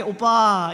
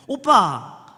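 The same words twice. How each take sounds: First: Softened, coaxing "오빠"; gentle, sweet. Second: High, loud, curt "오빠"; brusque calling. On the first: Showing how to call an older man sweetly, gently. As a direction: draw out "오빠" tenderly. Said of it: "나긋나긋하게 오빠 이렇게 불러줘야". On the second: Young woman calling church men the hurtful way, brusquely. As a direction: call out "오빠" loudly with no sweetness. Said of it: "늘 이렇게만 불러가지고". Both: Shown as a demonstration.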